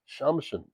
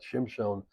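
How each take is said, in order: First: The first vowel is an 'a' sound. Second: The first vowel is an 'i' sound. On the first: This is the name he actually bore. The speaker calls it right. "his name was Shamshon" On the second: This is the name many people mistakenly use. The speaker calls it wrong. "not Shimshon, as so many people call him"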